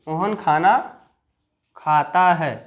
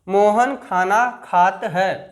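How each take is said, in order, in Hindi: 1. क्रिया का अंतिम स्वर पूरा बोला गया है। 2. क्रिया अपने अंतिम स्वर के बिना बोली गई है। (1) "आ का डंडा और दो ए की मात्रा लगती हैं" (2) "नहीं"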